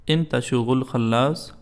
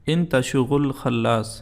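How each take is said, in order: No difference in how they are said.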